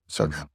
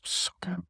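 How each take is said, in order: First: Much lower, soft voiced murmur. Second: Whispered with pleasure; longing whisper. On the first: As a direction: sink the voice into a low, soft murmur. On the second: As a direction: whisper it like a delicious secret. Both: Real, not acted. Dreaming of milkshake.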